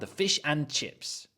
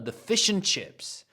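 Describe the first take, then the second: First: The word 'and' is said in full. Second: The word 'and' is reduced and linked. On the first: The speaker calls it wrong. "Don't go to a restaurant in England and say" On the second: The speaker calls it right.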